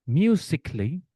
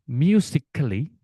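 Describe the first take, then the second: Both takes have the same delivery.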